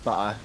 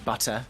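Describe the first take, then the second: First: The middle T is soft, like a D. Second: The middle T is clearly and sharply pronounced. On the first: "instead of" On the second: "I say butter"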